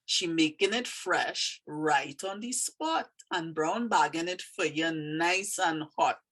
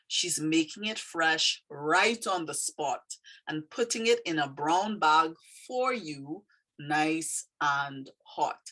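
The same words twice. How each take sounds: First: Trini dialect. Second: Said in the usual way. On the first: Shown as a demonstration. Teacher reading her poem to learners, in Trini dialect. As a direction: read it out in an unhurried Trini dialect. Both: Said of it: "Trini dialect".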